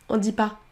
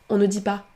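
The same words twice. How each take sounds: The two takes are said the same way.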